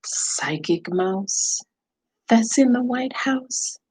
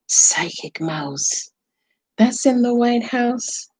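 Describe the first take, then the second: First: Slow, drawn-out mystical chant; Psychic Mouse voice. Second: Whispered slow mystical chant; Psychic Mouse whisper. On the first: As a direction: call on the mouse like a medium. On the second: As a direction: hush it like a secret spell. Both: Pretend. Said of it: "you want me to talk like Psychic Mouse?".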